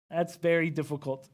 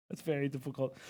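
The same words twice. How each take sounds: First: Said in the usual way. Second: Hushed, much softer repeat; soft, low-volume demonstration; attempted whisper. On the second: Real, not acted. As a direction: drop the voice toward a whisper. Tries the requested high energy whisper.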